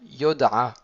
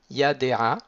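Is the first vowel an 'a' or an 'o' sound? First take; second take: o; a. First: The first vowel is an 'o' sound. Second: The first vowel is an 'a' sound. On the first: The speaker calls it wrong. "il devrait se prononcer o. On aurait dû dire yoda'a" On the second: The speaker calls it right. "le kamatz il reste entier... il reste prononcé comme un A"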